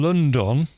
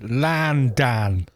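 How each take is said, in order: First: The first vowel sounds like a rounded 'o'. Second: The first vowel sounds like an open 'ah'. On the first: "instead of saying London" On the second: "they say Landan"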